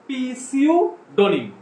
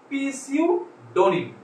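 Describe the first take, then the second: First: The word starts with a sounded p. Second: The same.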